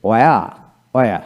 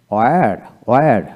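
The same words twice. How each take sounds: First: "ওয়া" with the final r dropped; non-rhotic British "ওয়া"; British pronunciation. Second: "ওয়্যার" with the final r sounded; American pronunciation. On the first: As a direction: say "ওয়া" the British way, ending on an open vowel. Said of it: "ব্রিটিশে". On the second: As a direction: say "ওয়্যার" ending on an audible r. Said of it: "আর উচ্চারণ সেখানে হবে". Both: Shown as a demonstration.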